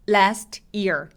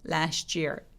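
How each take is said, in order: First: The t and y are said separately. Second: The t and y blend into a ch sound. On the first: "있는 그대로" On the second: "year라고 ch처럼 살짝"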